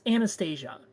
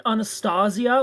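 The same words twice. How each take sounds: First: Anastasia as an-uh-STAY-zhuh; flat-A "an" opening, then "STAY-zhuh" in Anastasia; everyday pronunciation. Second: Anastasia as ah-nuh-STAH-zee-uh; "stah" in the middle of Anastasia; owner's disputed pronunciation. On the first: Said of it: "like, it's Anastasia". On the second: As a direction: say Anastasia with broad "ah" vowels. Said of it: "you can still say it wrong". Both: Shown as a demonstration.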